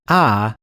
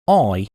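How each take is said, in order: First: The vowel is a long ah, Southern US style. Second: The vowel is said in an Australian or Cockney way. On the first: "how some of my friends in the southern states pronounce it" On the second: "the Australian way and also the way of the Cockney accent"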